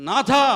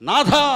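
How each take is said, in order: The two takes are said the same way.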